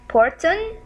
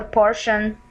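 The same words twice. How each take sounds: First: "porton" with a hard t, questioning; "porton", a deliberate misreading, rising; wrong hard T. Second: "portion" with sh in the middle; "portion", sh in place of the t; correct sh sound. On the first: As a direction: say "porton" as spelt, t not sh. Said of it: "Should we write or say porton". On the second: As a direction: say "portion" as por-shun. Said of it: "Yes, it will be portion". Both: Shown as a demonstration.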